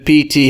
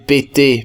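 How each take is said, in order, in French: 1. Les lettres se prononcent avec les noms de lettres anglais. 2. Les lettres se prononcent avec les noms de lettres français. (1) "les gens érudits appellent P T" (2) "c'est comme ça que ça se prononce dans leur langue"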